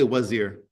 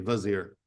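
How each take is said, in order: First: The word begins with a W sound. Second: The word begins with a V sound. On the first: "you can say wazir" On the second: "In Persian, they don't have a, a W sound, so they say vizier"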